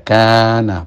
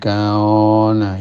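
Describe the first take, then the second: First: The long vowel after k sounds thin and light. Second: The long vowel after k sounds thick and rounded. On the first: The speaker calls it right. "jatuh setelah huruf tipis seperti kaf" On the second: The speaker calls it wrong. "bukan kaona ya"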